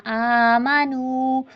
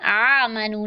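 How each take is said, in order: First: आमनू with a clear long नू; long, clean नू in आमनू; right way. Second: आमनू said flat, short, wrong; the nasal wrong reading of आमनू. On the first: Teacher giving the correct recitation, drawn out. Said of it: "और ये नू पढ़ना है". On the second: Teacher showing the mistaken reading. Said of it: "आमनू नहीं पढ़ना". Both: Shown as a demonstration.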